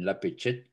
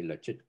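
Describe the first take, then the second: First: The phrase is said in its full form. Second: The phrase is said in a shortened form. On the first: This form is not used in everyday speech. The speaker calls it wrong. "of course, but we don't say that" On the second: This is how people actually say it. The speaker calls it right. "You would say Lachit"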